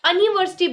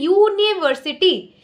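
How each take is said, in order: First: The word begins with a plain 'uh' vowel. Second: The word begins with a 'you' sound. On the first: The speaker calls it wrong. "ऐसा नहीं है कि हम अनिवर्सिटी बोल रहे हैं" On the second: The speaker calls it right. "हम बोल रहे हैं यूनिवर्सिटी"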